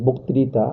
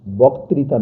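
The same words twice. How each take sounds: First: বক্তৃতা with round o, "bok-tri-ta"; correct o vowel. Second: বক্তৃতা with open aw, "bawk-tri-ta"; wrong open vowel. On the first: Teacher gives the right pronunciation, বক্তৃতা with a round o. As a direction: say বক্তৃতা with the first vowel closed to o. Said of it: "উচ্চারণ হবে". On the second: Teacher shows the reading to avoid, বক্তৃতা with open aw. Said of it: "না হয়ে". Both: Shown as a demonstration.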